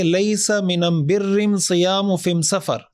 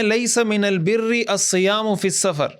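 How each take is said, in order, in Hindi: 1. इन articles का उच्चारण M ध्वनि के साथ होता है। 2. इन articles का उच्चारण L ध्वनि के साथ होता है। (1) "उनके लहजे में बात करके बताया" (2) "असल में"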